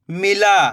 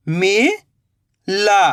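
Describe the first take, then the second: First: "मिला" joined in one go, no gap; blended word. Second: "मिला" slowly split, rising "mi", long pause, "la"; split into syllables. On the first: Teacher giving learners the result, "मिला" blended. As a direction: say "मिला" whole, short i. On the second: Teacher building the word for learners, "मिला" in slow pieces. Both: Shown as a demonstration. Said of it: "तो मिलके बन जाएगा".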